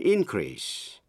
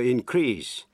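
First: The stress is on the first syllable. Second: The stress is on the second syllable. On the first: It is used as a noun. "nhưng khi là danh từ thì nhấn mạnh vần nhất" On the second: It is used as a verb. "Những động từ có hai vần thì thường nhấn vào vần nhì"

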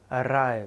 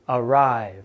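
First: The R sound is trilled with a rolling tongue. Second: The R sound is smooth and held, not trilled. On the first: The speaker calls it wrong. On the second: The speaker calls it right.

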